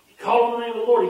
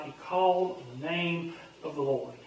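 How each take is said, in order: First: Fast, higher and louder, driving the words; "He called on the name of the Lord" punched out quickly; emphatic. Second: Soft. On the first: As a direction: proclaim it with force. Emphatic repeat of the verse. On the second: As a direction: let it settle gently. Quiet repeat of the verse. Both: Acted.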